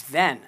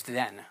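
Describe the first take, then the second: First: Then punched louder, falling hard; stress on Then. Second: Said in the usual way. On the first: Shown as a demonstration. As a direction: hit the single word Then with weight. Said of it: "And then it says, "Then". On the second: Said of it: "What do you mean, "then"?".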